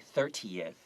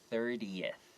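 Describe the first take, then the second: First: The middle consonant is a crisp T sound. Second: The middle consonant is a soft D-like sound. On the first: The speaker calls it wrong. "make sure you don't say thirtieth" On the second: The speaker calls it right. "it sounds more like a D"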